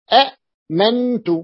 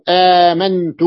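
First: أأمنت broken by a glottal catch after short a; original two-hamza form. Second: آمنت with a loud, drawn-out aa; long initial vowel. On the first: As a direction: slowly split أأمنت at the hamza. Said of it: "أصله". (أأمنت بتحقيق الهمزة الساكنة) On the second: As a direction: hold the aa of آمنت with no catch. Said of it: "أصلها ما هي؟". (آمنت بمدّ الألف) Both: Shown as a demonstration.

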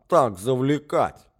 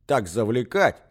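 First: Timid echoing. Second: Said in the usual way. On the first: A narrator's reading. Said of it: "поддакивал князь".

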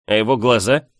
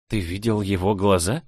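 First: Insistent, leading question; pressing question. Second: Understated surprise, ending on a rise; surprised. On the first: Friend presses girl about the duke's eyes, insistent. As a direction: press her on what she saw. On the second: Girl learns he saw the eyes, mildly surprised. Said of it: "Этот факт меня почему-то удивил". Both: A narrator's reading.

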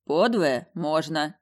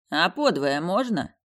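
First: Very slow confirming nod; slow, deliberate answer. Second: Slow, lazy question; lazy drawl. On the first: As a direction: grant it calmly and slowly. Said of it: "кивнул куратор". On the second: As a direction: ask it idly, unhurried. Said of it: "лениво поинтересовался Крайтон". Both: A narrator's reading.

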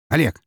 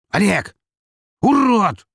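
First: Said in the usual way. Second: High furious yelling; angry yell. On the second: Acted. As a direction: scream it across the room. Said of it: "закричал он".

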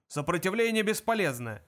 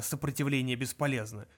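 First: Higher-pitched shouted slogan; moderately loud military bark; guard's shouting. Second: Said in the usual way. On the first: A narrator's reading. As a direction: shout it mechanically over everyone. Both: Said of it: "крики охранника".

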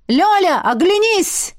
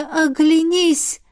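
First: High, loud booming dragon call; dragon's trumpeting roar. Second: Slow quoted realization. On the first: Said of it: "трубный рёв дракона". (трубный рёв дракона) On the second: Вспоминает слова дракона. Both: A narrator's reading.

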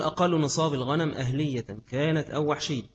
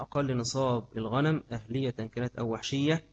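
First: Reading text aloud. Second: Said in the usual way. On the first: Acted. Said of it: "يقول". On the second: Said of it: "repeats text".

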